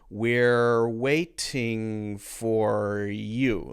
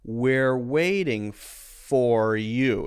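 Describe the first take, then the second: First: The middle of 'waiting' has a clear T sound. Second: The middle of 'waiting' has a light D sound. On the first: "If this were pronounced as a T" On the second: "the T is pronounced as a light D sound"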